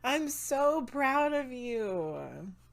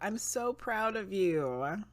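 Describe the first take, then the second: First: It is said with more enthusiasm and energy. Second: It is said in a calmer, plainer way.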